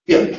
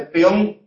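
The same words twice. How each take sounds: First: PEÓN as PYON, one syllable; careless peón. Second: PEÓN as pe-ON, two syllables; peón with hiatus. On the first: Teacher showing careless pronunciation, one-syllable pyon. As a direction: squash the E of PEÓN into a Y glide. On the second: Teacher showing the careful form, pe-ON. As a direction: keep E apart from O in PEÓN. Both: Shown as a demonstration. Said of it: "una pronunciación descuidada".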